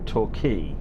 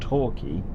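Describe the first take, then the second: First: The stress is on the second syllable. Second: The stress is on the first syllable. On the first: "as opposed to Torquay" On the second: "an emphasis on the tor, like Torquay"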